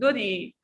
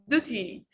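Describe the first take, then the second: First: The word is said in an American accent. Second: The word is said in a standard English accent. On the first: "we can say in American accent" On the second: "But in standard English, you can say duty"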